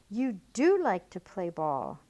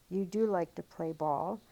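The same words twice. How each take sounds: First: Louder, with a falling push on do; excited exclamation. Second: Said in the usual way. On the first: Shown as a demonstration. Teacher showing how an exclamation point is read, excited. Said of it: "with an exclamation point". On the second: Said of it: "end this with a period".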